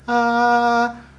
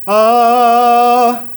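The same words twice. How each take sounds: First: The sound is thin without ringing resonance. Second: The sound rings with full resonance. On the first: The speaker calls it wrong. "Beda sama ha atau ah" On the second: The speaker calls it right. "lebih ada gaungnya di mulut"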